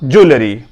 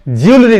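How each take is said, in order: First: ज्वेलरी as "joo-le-ree", lower; three syllables in ज्वेलरी, no y glide; correct pronunciation. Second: ज्वेलरी as "jyool-ree"; y glide after j in ज्वेलरी, two syllables; wrong pronunciation. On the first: Teacher closes with the proper reading, correct pronunciation. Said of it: "correct pronunciation". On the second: Teacher warns learners off this reading, wrong pronunciation. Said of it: "ज्वेलरी नहीं पढ़ना". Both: Shown as a demonstration.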